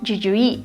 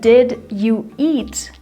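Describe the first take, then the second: First: The words are linked and said very fast. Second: Every word is pronounced fully and separately. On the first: "Very, very fast" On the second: "Instead of"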